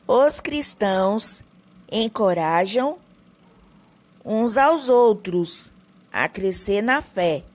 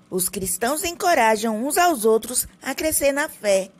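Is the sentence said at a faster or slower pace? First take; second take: slower; faster. First: It is said slowly, with more pauses. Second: It is said quickly, with few pauses. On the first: The speaker calls it right. "só que um pouco pausado" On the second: The speaker calls it wrong. "Eu tô correndo demais"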